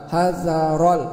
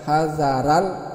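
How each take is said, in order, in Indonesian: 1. Bunyi r-nya berat, vokal sesudahnya gelap. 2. Bunyi r-nya ringan, vokal sesudahnya terang. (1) "huruf ra ini berbaris atas itu dibaca tebal" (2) "bukan hazaral"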